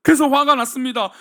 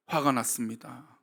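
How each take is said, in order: First: Loud, forceful announcement of anger; angry declaration. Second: Low, soft and slow 화가 났습니다; hushed repetition. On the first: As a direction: punch 그래서 화가 났습니다 like an accusation. Preacher stresses Cain's anger. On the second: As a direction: drop the voice and drag out 화가 났습니다. Preacher repeats anger, hushed. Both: Acted.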